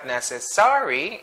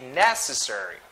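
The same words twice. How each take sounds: First: The stress is not on the first syllable. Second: The stress is on the first syllable. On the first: The speaker calls it wrong. "It's not necessary" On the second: The speaker calls it right. "it should be necessary. First syllable"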